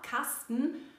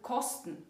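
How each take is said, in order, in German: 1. Der erste Vokal ist ein offener a-Laut. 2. Der erste Vokal ist ein o-Laut. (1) "statt A" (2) "ein O aussprechen"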